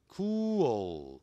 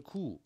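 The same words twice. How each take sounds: First: "cool" as long "koo-ol", with the final L sounded; correct pronunciation. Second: "cool" as "koo", with the final L dropped; wrong pronunciation. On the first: Teacher correcting students' missing L, careful pronunciation. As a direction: stretch "cool" and glide into a dark L. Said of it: "有一个L吗". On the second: Teacher warning students of a mistake, L-less mispronunciation. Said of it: "不要念成cool啊". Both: Shown as a demonstration.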